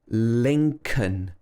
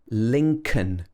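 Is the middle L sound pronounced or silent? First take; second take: silent; silent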